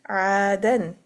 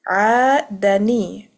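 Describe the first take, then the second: First: The word ends on a silent n sound. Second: The word ends with an added i vowel. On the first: "noon, sakin, dan" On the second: "you will give a kasra to the noon. It becomes ni. So like this"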